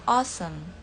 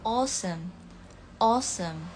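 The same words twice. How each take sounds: First: "awesome" with an open American vowel. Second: "awesome" with a rounded British O sound. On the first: Teacher contrasting British and American "awesome", American vowel. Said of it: "Kalau American". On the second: Teacher contrasting British and American "awesome", rounded O. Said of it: "Kalau misalnya British itu agak O". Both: Shown as a demonstration.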